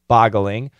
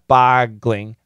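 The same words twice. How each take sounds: First: The word is said with three syllables. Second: The word is said with two syllables. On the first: The speaker calls it right. "it's three syllables" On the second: The speaker calls it wrong. "not boggling"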